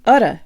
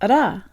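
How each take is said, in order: First: The stress is on the first syllable. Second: The stress is on the second syllable.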